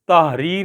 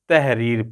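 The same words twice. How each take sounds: First: The first vowel is said full, Arabic style. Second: The first vowel is flattened, Urdu style. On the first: "ये तहरीर है अरबी में" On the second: "इसको तहरीर पढ़ना है"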